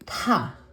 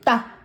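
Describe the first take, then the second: First: The consonant is released with a strong puff of air. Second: The consonant is tight and tense, with no air. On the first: "aspirated form ni ta" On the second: "double consonant o tense sound"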